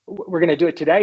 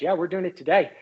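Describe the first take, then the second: First: "today" rising at the end, louder; surprised question. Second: "today" settled as a statement, no question rise; matter-of-fact confirmation. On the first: Doctor checking the news with his boss, "today" rising in surprise. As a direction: ask "today" as a startled check. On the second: President answering his doctor, "today" stated as settled. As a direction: confirm "today" evenly and decidedly. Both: Retold or imitated.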